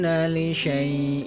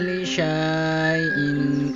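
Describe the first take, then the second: First: The vowel before the hamza is short. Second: The vowel before the hamza is lengthened. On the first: The speaker calls it right. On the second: The speaker calls it wrong.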